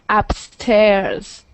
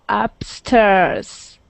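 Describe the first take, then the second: No difference in how they are said.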